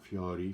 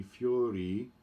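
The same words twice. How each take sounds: First: "fiori" with a rolled double R and open O; wrong fiori. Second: "fiori" with one tap of R and a closed O; single R, closed O. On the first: Coach showing the choir how not to say fiori, mock error. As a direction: say "fiori" the mistaken way, heavy R. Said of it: "not fiori". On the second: Coach modelling fiori with single R and closed O. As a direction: say "fiori" lightly, fee-OH-ree. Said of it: "single R, closed O". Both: Shown as a demonstration.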